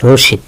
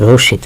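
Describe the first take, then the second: No difference in how they are said.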